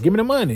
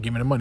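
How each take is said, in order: First: It is said with aggression. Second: It is said timidly, without aggression.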